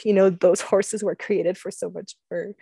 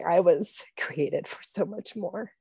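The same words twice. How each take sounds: First: Said in the usual way. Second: "I was created for so much more" said slower and softer, leaning on "I"; slow down and land "I" with quiet weight; slow emphasis. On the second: Shown as a demonstration. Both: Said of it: "but more importantly".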